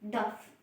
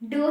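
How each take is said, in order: First: The word ends with an f sound. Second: The word ends on a long o vowel. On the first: The speaker calls it wrong. "इस word को pronounce कैसे करती थी, दफ" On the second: The speaker calls it right. "दो ही होता है"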